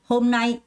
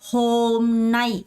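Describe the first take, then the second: First: The first syllable is weak, the second stressed. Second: Both syllables get equal, even beats. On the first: The speaker calls it right. "앞에 거는 약하게 뒤에 거는 강세를 주면서" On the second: The speaker calls it wrong. "이렇게 정박으로 읽는 사람은 없고요"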